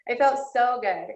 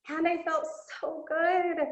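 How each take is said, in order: First: Said in the usual way. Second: Excited. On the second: Real, not acted. First of repeated claim.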